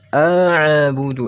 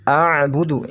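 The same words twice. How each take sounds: First: "a'budu" with a bouncing echo vowel after the ain; ain dipantul. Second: "A'budu" with the ain pressed and held, no bounce; ain ditekan. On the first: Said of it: "kalau dibaca seperti itu sah-, salah". ("a'budu" dengan ain memantul) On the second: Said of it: "Tidak dibaca pantul". ("A'budu" dengan ain ditekan, tidak dipantul) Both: Shown as a demonstration.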